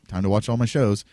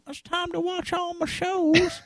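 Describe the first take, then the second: First: It is said in his normal voice. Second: It is said in a soap opera old-lady voice.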